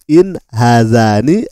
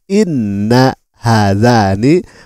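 First: The first word is a short 'in'. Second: The first word is 'inna' with a doubled n. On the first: The speaker calls it right. "Seharusnya dibaca" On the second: The speaker calls it wrong. "malah Anda mengatakan"

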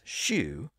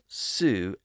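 First: The word begins with an sh sound. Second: The word begins with an s sound. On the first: "pronounced Sue as shoe" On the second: "pronounced Sue as shoe"

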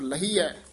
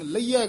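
First: The 'h' sound is clearly pronounced. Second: The 'h' sound is weak or dropped. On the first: The speaker calls it right. "ਹਾਹਾ ਲਾ ਕੇ ਬੋਲਣਾ" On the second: The speaker calls it wrong. "ਇਹ ਆਮ ਪਾਠੀ ਸਿੰਘ ਲਹੀਐ ਕਹਿ ਜਾਂਦੇ ਹਨ"

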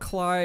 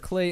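First: The vowel sounds like 'eye'. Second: The vowel sounds like 'ay'. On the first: The speaker calls it wrong. "I just called them Cly again" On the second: The speaker calls it right. "I found out I was mispronouncing it"

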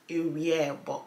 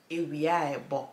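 First: The two words are joined into one word. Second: The same.

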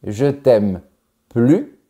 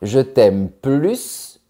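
First: The final S of plus is silent. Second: The final S of plus is pronounced. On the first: My love for you is gone. "sans prononcer le S" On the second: My love for you is stronger. "ça veut dire « je t'aime plus qu'avant »"

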